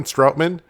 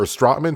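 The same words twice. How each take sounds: First: Stroutman with OW as in "out"; alternative pronunciation. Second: Stroutman with an open AH, like "Strotman"; alternative pronunciation. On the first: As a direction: say Stroutman as STROWT-man. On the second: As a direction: say Stroutman as STRAHT-man. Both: Shown as a demonstration. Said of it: "however you wanna pronounce it".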